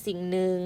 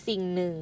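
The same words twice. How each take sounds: The two takes are said the same way.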